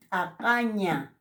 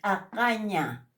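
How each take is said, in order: First: "acaña" again slowly, falling; slow repeat. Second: "acaña" slowly, each syllable clear, falling; slow Aymara word. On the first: Teacher repeating for students, slow and clear. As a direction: repeat "acaña" at the same careful pace. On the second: Teacher modelling the word for students, slow. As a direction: draw out "acaña" evenly. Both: Shown as a demonstration. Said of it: "Con T".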